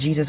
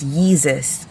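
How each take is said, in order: First: The name begins with a J sound. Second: The name begins with a Y sound. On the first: The speaker calls it wrong. "Jesus was a mispronunciation" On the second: The speaker calls it right. "It's Yeezus"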